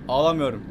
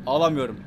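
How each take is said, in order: Both takes have the same delivery.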